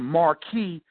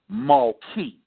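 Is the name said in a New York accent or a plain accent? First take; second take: plain; New York. First: It is said in a plain, non-New York accent. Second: It is said in a New York accent.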